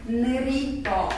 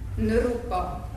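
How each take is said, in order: First: A clear i vowel is sounded after the r. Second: A u vowel is sounded after the r. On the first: "az nem jó kihangsúlyozni" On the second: "sokan ezt a rit runak ejtik"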